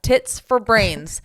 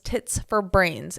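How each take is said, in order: First: It is said loudly. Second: It is said at normal volume.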